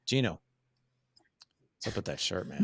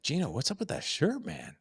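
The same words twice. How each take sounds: First: Judgmental tone. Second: Much higher, lilting, rising on shirt; light teasing that sounds like a compliment; playful friendly tone. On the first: Host teasing co-host Gino about his shirt, judgmental. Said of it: "that's voice tone number one". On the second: Host teasing co-host Gino about his shirt, playful and friendly. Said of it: "The second one is rocking". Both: Shown as a demonstration.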